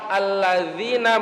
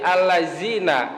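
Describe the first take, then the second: First: The middle consonant is a soft 'dh' sound. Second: The middle consonant is a 'z' sound. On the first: The speaker calls it right. "pas lafaz alladzina" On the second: The speaker calls it wrong. "diganti za"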